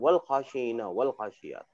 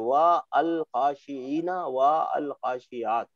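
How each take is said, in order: First: Each 'wa' and 'al' merge into one syllable 'wal'. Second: Each 'wa' and 'al' is said as separate syllables. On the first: This is how it is normally read. The speaker calls it right. "सही तरीका तो वही है ना" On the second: It makes the article easy to notice. The speaker calls it wrong. "हम तो समझने के लिए पहले ऐसे ही पढ़ेंगे"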